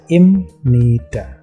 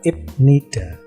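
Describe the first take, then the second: First: The middle consonant is an m sound. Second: The middle consonant is a b sound. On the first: The speaker calls it right. "jadinya dibaca imnida" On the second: The speaker calls it wrong. "ketika di situ ada ibnida"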